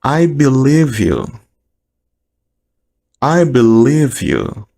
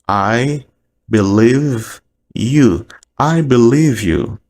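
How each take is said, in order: Both takes have the same delivery.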